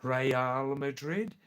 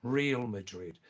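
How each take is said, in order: First: Real as two syllables, "ray-AHL", drawn out slowly; correct Spanish pronunciation. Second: Real said like English "reel"; anglicized pronunciation. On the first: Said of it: "Number one". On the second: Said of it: "number two pronunciation". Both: Shown as a demonstration.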